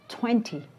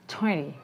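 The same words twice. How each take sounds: First: The t sound after n is pronounced. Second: The t sound after n is dropped.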